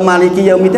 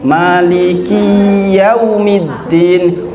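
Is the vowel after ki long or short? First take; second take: short; long. First: The vowel after ki is kept short. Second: The vowel after ki is held long. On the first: The one who rules the last day. The speaker calls it right. "Yang menguasai hari akhir" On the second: The last day belongs to me. The speaker calls it wrong. "pakai ya mutakalim"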